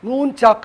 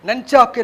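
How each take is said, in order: First: The first vowel is a long 'u' sound. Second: The first vowel is a short 'a' sound. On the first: The speaker calls it right. "என் ஓஓஎன் நூன் நூன் சாக்கு என்றுதான் அதை உச்சரிக்க வேண்டும்" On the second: The speaker calls it wrong. "நஞ்சாக்கு என்று உச்சரிக்கக்கூடாது"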